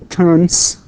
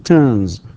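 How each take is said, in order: First: The final sound is a hissing 's'. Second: The final sound is a buzzing 'z'. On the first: The speaker calls it wrong. "We don't say turns" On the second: The speaker calls it right. "بينما نقول turns"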